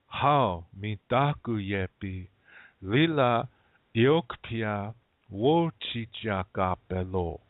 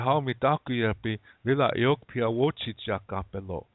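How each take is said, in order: First: The phrase is spoken slowly. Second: The phrase is spoken at normal speed.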